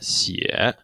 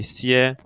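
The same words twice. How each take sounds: First: The pitch dips low and then rises. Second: The pitch stays high and level throughout. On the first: It means to write. "The third tone" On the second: It means to rest. "The first one we associated with flatness"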